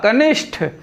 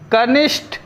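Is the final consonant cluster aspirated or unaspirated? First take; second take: aspirated; unaspirated. First: The final consonant is an aspirated th sound. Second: The final consonant is an unaspirated t sound. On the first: The speaker calls it right. "टा के बजाय क्या हो जाएगा, ठा" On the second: The speaker calls it wrong. "टा और ठा का यहाँ जो है अशुद्धि है"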